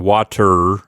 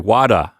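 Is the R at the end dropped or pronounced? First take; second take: pronounced; dropped. First: The final R sound is clearly pronounced. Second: The final R sound is dropped. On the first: "I just now said the R at the end" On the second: "if I'm from certain parts of the country, I might say wada"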